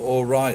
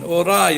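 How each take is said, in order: First: It is said in an English accent. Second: It is said in a Japanese accent. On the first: "sounds like he's saying right, right, right, or all right" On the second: "the Japanese version"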